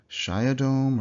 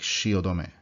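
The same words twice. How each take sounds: First: It is said the English way, with fewer syllables. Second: It is said as four separate even syllables. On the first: The speaker calls it wrong. "an English speaker seeing this for word for the first time will probably say" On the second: The speaker calls it right. "you have to pronounce it in the four syllables"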